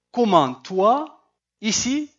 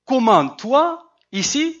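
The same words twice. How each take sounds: First: Slow rising surprised question; mild surprised intonation, drawn out. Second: Slow, high, louder surprised rise; higher, louder surprised question. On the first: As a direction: ask it as if amazed to see him. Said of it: "j'essaie de donner l'intonation". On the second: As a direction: really sound astonished to find him there. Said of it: "mais c'est une question". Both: Shown as a demonstration.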